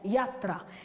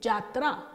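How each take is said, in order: First: The word begins with a y sound. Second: The word begins with a j sound. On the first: The speaker calls it right. "शब्द हमारा है यात्रा" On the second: The speaker calls it wrong. "ये अशुद्ध है ... हमने या की जगह जा बोला"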